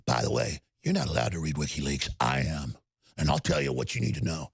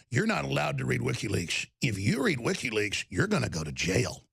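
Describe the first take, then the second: First: Much lower, menacing mock anchor voice; host mocking Cuomo's threats on camera, menacing mock voice; threatening Cuomo. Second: Mocking Cuomo. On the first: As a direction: growl it like a smug bully. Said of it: "so threatening when he ... goes". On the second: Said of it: "Cuomo saying".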